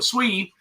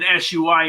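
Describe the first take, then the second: First: The name is said as one syllable, swee. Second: The name is said with several separate syllables. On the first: The speaker calls it right. "the proper way to pronounce S U I is S W E" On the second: The speaker calls it wrong. "That sounds better than than uh, than S U I anyway"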